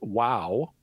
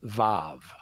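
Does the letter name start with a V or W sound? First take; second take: W; V. First: The name begins with a W sound. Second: The name begins with a V sound. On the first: "will either be known as Wow, which we would transliterate in English with a W" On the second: "or it'll be known as Vav, which we would transliterate in English with a V"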